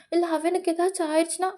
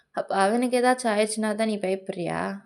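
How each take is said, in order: First: High, quick anxious question; acted alarm, rushed and high; worried protest. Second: Understated confrontational question; accusing retort. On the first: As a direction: blurt out the worry, pitched high. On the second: Acted. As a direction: throw the worry back as an accusation. Partner throws the worry back.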